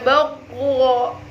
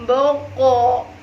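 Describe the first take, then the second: The two takes are said the same way.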